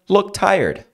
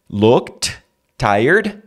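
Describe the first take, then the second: First: The T at the end of looked is dropped. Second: The T at the end of looked is pronounced. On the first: "vira look tired" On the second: "Looked tired vira"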